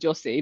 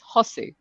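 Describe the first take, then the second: First: The name is said with English-style sounds. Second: The name is said with Spanish sounds. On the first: The speaker calls it wrong. "that's not Jose" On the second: The speaker calls it right. "that is Spanish pronunciation"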